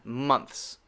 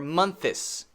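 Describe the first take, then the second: First: The word is said as one syllable. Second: The word is split into two syllables. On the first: The speaker calls it right. "It has to be only one syllable" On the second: The speaker calls it wrong. "It can't be two syllables"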